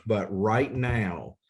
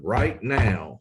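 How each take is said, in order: First: Said in the usual way. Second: Punchy, louder car salesman pitch. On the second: Acted. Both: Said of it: "I sound like a car salesman".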